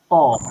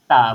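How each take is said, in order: First: The t is heavy with a rounded o vowel. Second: The t is light with an open a vowel. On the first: The speaker calls it wrong. "Kalau tebal bermakna bukan ta dah, dia jadi to" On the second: The speaker calls it right. "gunakan bunyi T A ta"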